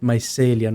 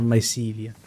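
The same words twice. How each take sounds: First: "mycelia" with a short e, my-SELL-ia; corrected pronunciation. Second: "mycelia" with a long EE, my-SEE-lia; mistaken pronunciation. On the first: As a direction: stress a sell in the middle of "mycelia". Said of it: "you pronounce it mycelia". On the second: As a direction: put a see in the middle of "mycelia". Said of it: "not mycelia". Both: Shown as a demonstration.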